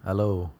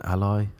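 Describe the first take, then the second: First: "Aloe" said "AL-oh", stress on the first syllable; right pronunciation. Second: Put-on "Aloe" said as "AL-oy", rhyming with boy; wrong pronunciation. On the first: After checking online, "Aloe" as al-oh. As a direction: say "Aloe" as al-oh, the proper way. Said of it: "let's hear what he says". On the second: Testing a guess at the word, "Aloe" as al-oy. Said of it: "I presume that's not how you pronounce it". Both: Shown as a demonstration.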